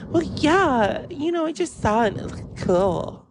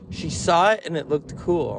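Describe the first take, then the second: First: High, airheaded mock voice; clueless coworker. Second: Said in the usual way. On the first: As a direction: justify it lightly in a high put-on voice. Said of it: "And she went".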